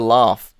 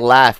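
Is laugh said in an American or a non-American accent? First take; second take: non-American; American. First: The word is said in a non-American accent. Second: The word is said in an American accent. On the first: "We'll say laugh" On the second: "like you guys will say laugh"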